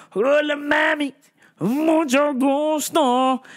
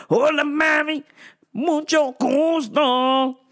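First: Smooth pickup line. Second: Higher, slow flirty "mucho gusto"; smooth pickup line. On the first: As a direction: drawl it out like a smooth flirt. Greeting women in Spanish. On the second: Repeat of the flirty greeting. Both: Retold or imitated.

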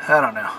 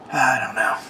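First: Said in the usual way. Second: Unvoiced, resigned whisper; a defeated little whisper. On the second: Real, not acted. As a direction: exhale it with no voice. Frustrated sigh during rant.

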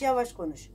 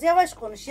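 First: Yavaş konuş dropped low and much softer; the same words, shown softly; slow and quiet. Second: Said in the usual way. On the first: Shown as a demonstration. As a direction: ease off into a calm, hushed yavaş konuş.

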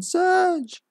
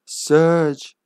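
First: Surge drawn out very high and slow; mom's wake-up voice. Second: Said in the usual way. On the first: Acted. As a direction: call Surge like a mom waking her son. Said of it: "I mean". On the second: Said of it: "I mean, Surge".

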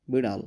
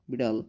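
The two takes are said the same way.

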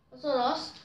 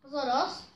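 The two takes are said the same way.

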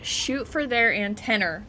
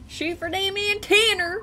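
First: Said in the usual way. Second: Mock higher echo. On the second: Shown as a demonstration.

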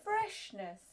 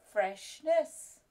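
First: High read-aloud. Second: Said in the usual way. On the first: Shown as a demonstration. Teacher starts the final check, saying Freshness high. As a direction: say Freshness high with a falling tune.

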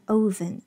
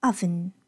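First: "oven" starting with a long oh, "oh-ven"; wrong oven. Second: "oven" starting with a short uh, "uh-ven"; correct oven. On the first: Teacher warns learners, "oven" mispronounced as "oh-ven". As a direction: round the first vowel of "oven" into oh. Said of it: "这个单词千万别念oven". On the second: Teacher corrects learners, "oven" as "uh-ven". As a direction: open short first vowel in "oven". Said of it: "它是一个倒V的啊". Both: Shown as a demonstration.

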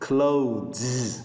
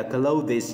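First: Clothes said as one syllable, ending on a buzzing Z; one syllable, klohz, with the Z buzzing at the end; correct pronunciation. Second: Clothes said as two syllables, klow-dis, with the ES sounded; wrong pronunciation. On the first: Teacher models the native way, clothes ending in Z. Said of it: "cái âm Z ở cuối". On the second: Teacher shows students the common mistake, clothes as klow-dis. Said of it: "Sai đó, clothes là không đúng". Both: Shown as a demonstration.

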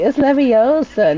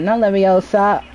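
First: Slow, careful Leviosa with stretched O; "Leviosa" drawn out with the stress on the long O; Hermione correcting. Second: Quick "Leviosa" with the stress on the final SA; "Leviosa" snapped short and stressed at the end; wrong Leviosa. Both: Retold or imitated. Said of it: "It's like Hermione".

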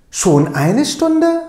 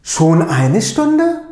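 First: "Schon eine Stunde?" pitched higher, slow and amazed; surprised question. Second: Slow "Schon eine Stunde?" with the pitch rising on "Stunde"; questioning tune. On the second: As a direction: ask "Schon eine Stunde?" slowly, lifting "Stunde". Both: Shown as a demonstration. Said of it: "doğru telaffuza bir dikkat edelim".

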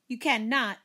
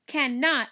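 First: Higher-pitched indignant denial; mild sibling protest, pitched up. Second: High, mildly screamed denial; contained scream, pitched up; mock scream. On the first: Acted. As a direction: protest it to your brother. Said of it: "I protested". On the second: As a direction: cry it out in a sibling squabble. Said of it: "I screamed".

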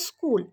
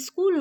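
First: School with a clean initial s; correct school pronunciation. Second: Iskul with a leading i; wrong iskul pronunciation. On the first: Teacher giving pupil the right word, school without i. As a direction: drop the i, begin school on s. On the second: Teacher showing pupil's error, school said as iskul. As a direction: add an i before the s of school. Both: Shown as a demonstration. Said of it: "ওটা স্কুল নয়".

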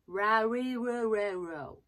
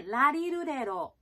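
First: ラリルレロ slow and louder with rounded English R; English R sounds. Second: ラリルレロ with Japanese-style L, louder; L sounds. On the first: Coach contrasting R against L, slow English-R ラリルレロ. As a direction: drag out ラリルレロ, tongue touching nothing. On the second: Coach contrasting L against R, L-sound ラリルレロ. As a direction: say ラリルレロ with tongue-tapped L sounds. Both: Shown as a demonstration. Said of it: "違いますよね".

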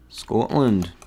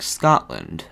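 First: Attempted Scottish accent on "Scotland". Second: Said in the usual way. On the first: Shown as a demonstration. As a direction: say "Scotland" like a Scot, rounded first vowel. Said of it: "How's my accent?". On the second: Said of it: "say in a Scottish accent".

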